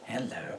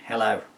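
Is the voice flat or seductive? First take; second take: seductive; flat. First: The voice sounds sultry and seductive. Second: The voice sounds empty and monotone.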